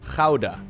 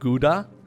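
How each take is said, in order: First: It begins with a harsh, throaty g sound. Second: It begins with a hard English g sound. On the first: "You want to hear the Dutch pronunciation of whatever that means? Okay, here it is" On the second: "I know people in America call this, like, Gouda"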